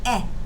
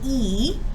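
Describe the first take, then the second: First: The vowel is a short 'eh' sound. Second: The vowel is a long 'ee' sound. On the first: "the E usually only makes the eh sound" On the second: "the long vowel sound, and it can say its name"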